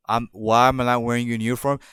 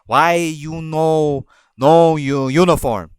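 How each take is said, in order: First: Said in the usual way. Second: Slow, loud, broken-English scolding; imitating the boss's slow, louder scolding; mock bossy manager. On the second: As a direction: drag it out like a nagging boss demanding an answer. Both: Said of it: "she bitched at me".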